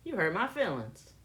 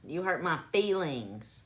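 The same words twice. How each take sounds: First: "feelings" as "fillins", short first vowel, dropped g; own "fillins" pronunciation. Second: "feelings" as "fee-lings", long ee and ringing ng; careful standard pronunciation. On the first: Asking listeners how they say it, "feelings" as "fillins". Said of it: "How do I say it?". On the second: Testing how others say it, careful "fee-lings". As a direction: pronounce "feelings" fully, syllable by syllable. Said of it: "Is that how you actually say it?". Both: Shown as a demonstration.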